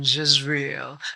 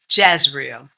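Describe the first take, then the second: First: The name is said with a French pronunciation. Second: The name is said with a plain pronunciation.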